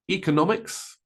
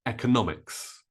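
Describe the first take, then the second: First: Economics as EE-kuh-NOM-iks, rising; long E. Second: Economics as EK-uh-NOM-iks, falling; short E. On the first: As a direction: start economics with ee. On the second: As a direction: start economics with eh. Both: Shown as a demonstration. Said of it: "Both E and E are correct".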